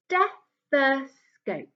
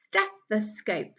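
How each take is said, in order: First: "Stethoscope" stretched very slowly; teacher enjoying "Stethoscope" slowly; slow model. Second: Said in the usual way. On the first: Shown as a demonstration. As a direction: savour "Stethoscope" slowly, syllable by syllable. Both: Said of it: "I like saying that one".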